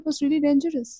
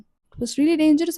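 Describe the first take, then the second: First: Said in the usual way. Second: Drawn out very slowly for weight; "dangerous" stretched, each word slow and heavy; slow emphatic. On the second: Real, not acted. Telling viewers how scary the stalking was, slowly and gravely.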